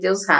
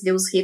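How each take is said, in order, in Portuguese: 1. O nome termina com a vogal 'a'. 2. O nome termina com a vogal 'e'. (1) "mais comum vocês ouvirem Deus Ra" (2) "na arqueologia a gente fala mais Deus Re"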